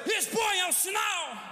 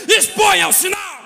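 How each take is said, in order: First: High, slow call at reduced volume; long, high preacher's cry, held back in force; drawn-out cry. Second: Full-voiced, high pulpit shout; loud, high preacher's proclamation; shouted command. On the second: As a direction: cry the command out to the whole church. Preacher cries out the message's command. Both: Real, not acted.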